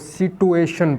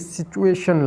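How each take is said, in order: First: The middle consonant is a 't' sound. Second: The middle consonant is a 'ch' sound. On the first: "आप इसको सिटुएशन पढ़ा करें" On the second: "ये सिचुएशन लफ्ज़ गलत है"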